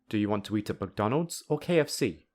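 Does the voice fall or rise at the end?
fall. The voice rises on McDonald's, then falls. The listener must choose one of the two options. "the listener will choose one of them"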